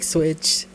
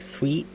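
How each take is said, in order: First: The name is said like the word switch. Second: The name is said like the word sweet. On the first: The speaker calls it wrong. "and not like switch" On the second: The speaker calls it right. "it's pronounced more like sweet"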